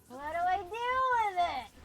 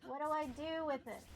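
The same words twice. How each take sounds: First: Exasperated wail. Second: Said in the usual way. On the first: Real, not acted. Stuck player asking what to do with a game object, exasperated wail. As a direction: wail it out in frustration.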